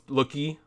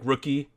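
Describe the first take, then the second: First: The word begins with an L sound. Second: The word begins with an R sound.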